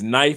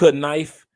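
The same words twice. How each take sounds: First: The word starts with a silent K. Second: The word starts with a sounded K. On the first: The speaker calls it right. "it's knife, and you wonder why is the K right there?" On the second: The speaker calls it wrong. "it's not knife"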